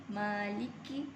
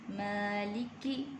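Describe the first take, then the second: Both takes have the same delivery.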